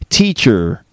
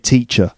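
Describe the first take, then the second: First: The word ends with an audible R sound. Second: The word ends in a vowel with no R sound. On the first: "I don't say teacher. No, I don't add a r at the end" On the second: "I'm from England, so I say teacher"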